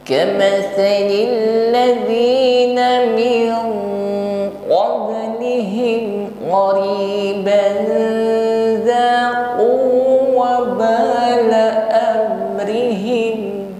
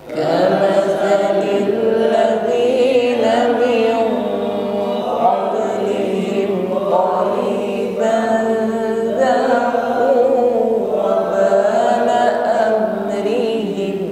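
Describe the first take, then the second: Both takes have the same delivery.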